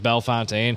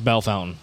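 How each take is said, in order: First: The second word sounds like French 'fontaine'. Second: The second word sounds like English 'fountain'. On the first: The speaker calls it wrong. "I mispronounced it like Bell Fontaine" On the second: The speaker calls it right. "It's definitely pronounced Bell Fountain"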